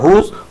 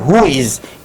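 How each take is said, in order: First: It is said as one short contracted word. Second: It is said slowly as two separate words. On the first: "लेकिन इसको पढ़ा जाता है" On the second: "धीरे से धीमे से अगर आप इसको ध्यान दीजिएगा तो बोलते हैं"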